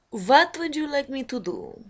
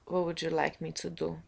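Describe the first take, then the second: First: Higher, louder put-on voice; put-on impression voice. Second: Said in the usual way. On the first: Shown as a demonstration. Offering impressions to the viewers, in a higher put-on voice. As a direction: pitch it up and push it out. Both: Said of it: "I didn't do too many impressions today".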